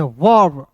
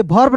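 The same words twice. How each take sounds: First: वर्ब with a v, falling and low; low, falling वर्ब starting on v; v sound in वर्ब. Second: वर्ब misread as bharb. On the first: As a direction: say वर्ब as varb, not bharb. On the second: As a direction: say वर्ब wrongly with a breathy bh at the start. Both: Shown as a demonstration. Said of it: "इसे वर्ब नहीं पढ़ते हैं".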